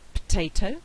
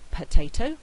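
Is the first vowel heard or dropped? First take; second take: dropped; heard. First: The first weak vowel is left out. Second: The first weak vowel is pronounced. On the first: "We've lost the vowel altogether" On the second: "instead of saying"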